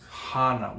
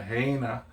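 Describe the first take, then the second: First: The first vowel sounds like ah. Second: The first vowel sounds like ay. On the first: The speaker calls it right. "there's a proper way of saying these Hawaiian words" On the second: The speaker calls it wrong. "you don't say, oh, we're going to Heina"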